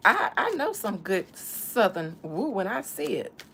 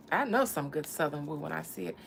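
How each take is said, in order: First: Louder emphatic take. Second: Said in the usual way. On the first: Pretend.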